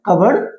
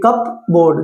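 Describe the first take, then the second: First: The P is left out, like cubberd. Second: The P is sounded, like cup plus board. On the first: The speaker calls it right. "Proper इसकी pronunciation" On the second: The speaker calls it wrong. "जब हम सी U पी कप पढ़ेंगे"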